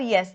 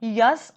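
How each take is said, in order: First: "यस" with an 'eh' vowel, 'yes'; correct pronunciation. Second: "यस" with an open 'uh' vowel, 'yus'; yanlış telaffuz. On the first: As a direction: contrast it by saying "यस" as English 'yes'. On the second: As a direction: say "यस" wrongly as 'yus', set apart for contrast. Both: Shown as a demonstration. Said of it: "pronunciation का फ़र्क है".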